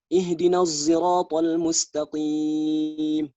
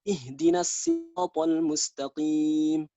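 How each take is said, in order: First: Sirat begins with a z-like sound. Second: Sirat begins with a plain s sound. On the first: "Terdengar seperti huruf zai" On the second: "Jadi sodnya diganti menjadi sin"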